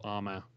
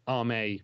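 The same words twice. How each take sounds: First: "Arma" ending in an AH sound; "Arma" with an open final "ah"; alternative pronunciation. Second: "Arme" ending in a long AY sound; "Arme" with the last vowel like "may"; alternative pronunciation. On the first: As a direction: say "Arma" as AR-mah. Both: Shown as a demonstration. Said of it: "however you wanna say it".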